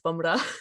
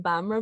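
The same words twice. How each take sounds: First: The name is said with a Punjabi pronunciation. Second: The name is said with an anglicized pronunciation. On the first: "if it's a Punjabi accent, it's Bamra" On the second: "I always say Bamra"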